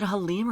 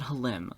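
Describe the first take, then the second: First: "Halim" with a long ee, ha-LEEM; long-ee pronunciation. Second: "Halim" with a short i, ha-LIM; short-i pronunciation. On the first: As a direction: stretch the second vowel of "Halim" to ee. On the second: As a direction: make "Halim" rhyme with him. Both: Shown as a demonstration. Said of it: "is it Halim or is it Halim?".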